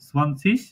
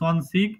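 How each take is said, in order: First: The word ends with a soft 'sh' sound. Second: The word ends with a hard 'g' sound. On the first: This is the form being taught. "তো আমরা অ্যাকসেন্ট টাই শিখি। সেটা হলো এটা ইস" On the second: Some regions say it this way. "জার্মানের অঞ্চল ভেদে দুই ভাবে উচ্চারণ করে। ইগ ইউজকরণ করে যেমন"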